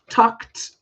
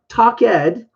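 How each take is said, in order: First: The ending is said as a short 't' sound. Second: The ending is said as a separate 'ed' syllable. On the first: The speaker calls it right. "it's actually with a T sound" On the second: The speaker calls it wrong. "pronunciation is not talk ed"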